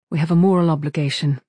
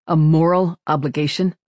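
First: Firm statement with a falling end; holding back emotion. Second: Louder echo question, rising at the end; skeptical surprise. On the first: Crewmate insisting to the captain, emotion held back. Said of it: "as if fighting back her emotions". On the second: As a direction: repeat it back as a raised-eyebrow question. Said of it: "eyebrows climbed toward his hairline". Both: A narrator's reading.

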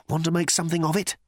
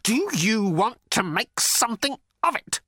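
First: Quick, raised-pitch dare; fast, higher challenge; feeble challenge. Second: High, quavering challenge; frightened defiance, word by word. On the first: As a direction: pick a fight in a hurry. Arthur challenges Thor, tiny fists raised. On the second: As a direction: dare a giant, voice wobbling. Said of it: "could not keep the quavering out of his voice". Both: A narrator's reading.

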